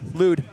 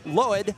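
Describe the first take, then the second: First: The name has an 'oo' vowel sound. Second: The name has an 'oy' vowel sound. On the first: The speaker calls it right. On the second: The speaker calls it wrong. "I always mess it up"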